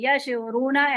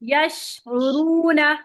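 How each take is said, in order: First: The 'sh' sound is released quickly and cut short. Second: The 'sh' sound is held long with spreading hiss. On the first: The speaker calls it wrong. "अक्सर स्टूडेंट्स करते हैं ये, ... ऐसे नहीं" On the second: The speaker calls it right. "शीन को अपना पूरा टाइम देंगे"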